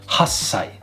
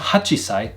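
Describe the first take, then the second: First: The chi is dropped and the s lengthened. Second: The chi sound is kept before sai. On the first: The speaker calls it right. "drop off the chi sound and make the s sound longer" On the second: The speaker calls it wrong. "So not hachisai"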